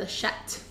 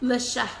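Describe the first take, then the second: First: The word ends with a T sound. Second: The word ends without a T sound. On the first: It becomes a vulgar slang word. The speaker calls it wrong. "because I said it with a T" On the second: It simply means cat. The speaker calls it right. "Le chat means cat"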